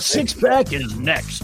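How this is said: It is said in a put-on DJ announcer voice.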